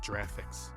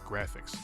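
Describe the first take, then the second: First: The word begins with a J sound. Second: The word begins with a hard G sound. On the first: The speaker calls it wrong. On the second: The speaker calls it right. "you pronounce graphics with a G"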